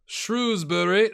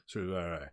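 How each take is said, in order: First: Shrewsbury drawn out slowly, loud and high; Shrewsbury stretched out as a proud attempt; first-guess pronunciation. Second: Shrewsbury run together, low and soft; Shrewsbury said low, as a quieter second guess; corrected pronunciation. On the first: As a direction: say "Shrewsbury" big, slow and deliberate. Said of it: "that's how you say it, right?". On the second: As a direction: toss off "Shrewsbury" with a reduced, swallowed ending. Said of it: "it's probably Shrewsbury". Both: Shown as a demonstration.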